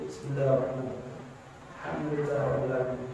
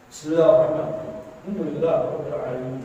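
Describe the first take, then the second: First: It is recited softly, barely audible. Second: It is recited in a loud voice.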